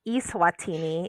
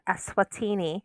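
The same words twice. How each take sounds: First: It starts with a separate letter E, like e-mail. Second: The first syllable blends into the rest of the word.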